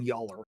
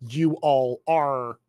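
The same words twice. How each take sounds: First: "y'all are" run together as one quick Southern contraction; "y'all are" said softly and squeezed into one syllable plus "are"; contracted form. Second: "you all are" said slow, every word full and separate; "you all are" said slowly in full, no contraction; spelled-out form. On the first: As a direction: drop into "y'all are" as a single slurred unit. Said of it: "You would write the character saying". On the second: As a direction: carefully pronounce "you all are" as three distinct words. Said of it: "You would not write". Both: Shown as a demonstration.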